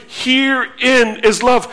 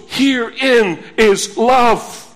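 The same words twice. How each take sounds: First: "Herein is love," read as an exclamation, rising on "love"; exclamatory reading. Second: "Herein" leaned on slowly, as if in bold letters; stress on herein. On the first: Pastor showing the children an exclamation mark, "Herein is love," rising on "love". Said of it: "exclamation mark". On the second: Pastor showing Greek emphasis by stressing "Herein" slowly, as if in bold. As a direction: hit "Herein" hard and slowly at the start. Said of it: "It's with bold letters". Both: Shown as a demonstration.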